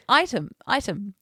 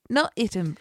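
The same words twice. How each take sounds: First: "item" repeated as "EYE-tum"; "item" said clearly as "EYE-tum", twice; corrected pronunciation. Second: "item" said "ITT-um" after a firm "not"; "item" as "ITT-um", being corrected; rejected pronunciation. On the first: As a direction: stress the long "eye" opening "item". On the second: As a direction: quote the wrong "item", short first vowel. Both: Retold or imitated. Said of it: "He said".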